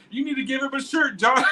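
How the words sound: It imitates the wife's sweet little voice.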